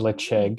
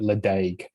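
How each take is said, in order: First: The middle consonant is a throaty ch sound. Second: The middle consonant is a plain d sound. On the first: The speaker calls it right. "we eventually got to what we meant" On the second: The speaker calls it wrong. "have called it Ledaig"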